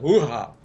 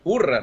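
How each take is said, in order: First: The word starts with a strong breathy H. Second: The word starts without a breathy H sound. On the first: This is how the foreigners say it. "é com H, é bem aspirado" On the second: This is how Brazilians say it. "a gente não diz com esse H aspirado"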